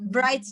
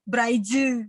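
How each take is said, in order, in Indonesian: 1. Kata ini berakhir jelas pada konsonan terakhirnya. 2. Ada vokal tambahan setelah konsonan terakhir.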